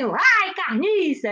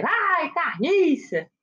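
First: "Ai, carniça!" shouted out louder and higher, "Ai" punched; playful mock yell of disgust; mock alien yell. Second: "Ai, carniça!" stretched slow, "ai" long and falling; drawn-out mock call. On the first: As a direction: yell "Ai" down from the sky, then "carniça" with a falling tune. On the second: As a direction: drag out "Ai" then "carniça" as a lazy call from above. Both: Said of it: "eles gritam lá assim".

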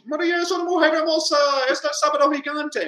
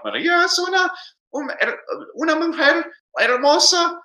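First: Very high, fast exclamation from "Maria" onward; hammed-up Spanish announcement, high from "Maria" to "gigante"; exclamation from the start. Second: Very high questioning tune from "Maria" through "hermosa"; high-pitched Spanish question, rising on "hermosa"; question from the start. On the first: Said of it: "gives me an upside down exclamation". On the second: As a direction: exaggerate the question right from "Maria". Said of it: "upside down question mark right at the very beginning". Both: Shown as a demonstration.

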